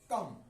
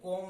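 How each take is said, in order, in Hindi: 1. स्वर छोटा और बिना गोल हुआ है, जैसे 'cup' में। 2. स्वर गोल है, जैसे 'hot' में। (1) "कम पढ़ेंगे" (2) "इसको कॉम नहीं"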